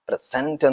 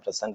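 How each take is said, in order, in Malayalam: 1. Stress രണ്ടാമത്തെ സിലബിളിലാണ്. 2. Stress ആദ്യ സിലബിളിലാണ്. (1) "അതൊരു വെർബ് ആയിട്ട് മാറും" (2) "ഫസ്റ്റ് സിലബിളാണ് നമ്മൾ സ്ട്രെസ് ചെയ്യുന്നെങ്കിൽ"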